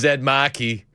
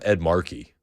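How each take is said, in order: First: The name is said with a Boston accent. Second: The name is said with a general American accent. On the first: The speaker calls it right. "You got to say it like that" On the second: The speaker calls it wrong. "It's not Ed Markey"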